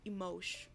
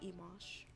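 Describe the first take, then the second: First: It is said like the start of emotional. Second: It is said unlike the start of emotional. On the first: The speaker calls it right. "I can say it properly" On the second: The speaker calls it wrong. "It's not emosh"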